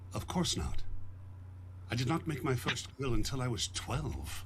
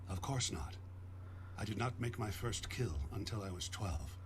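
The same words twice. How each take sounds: First: It is said in an exasperated, 'you dummy' tone. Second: It is said in a plain, matter-of-fact tone.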